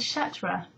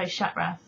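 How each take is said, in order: First: The T sounds are clearly pronounced. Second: The T sounds are dropped.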